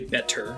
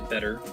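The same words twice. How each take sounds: First: The T is said with a puff of air. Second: The T is said without a puff of air. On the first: "I don't say better" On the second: "I don't aspirate my T's. I say better"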